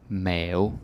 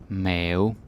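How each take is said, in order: No difference in how they are said.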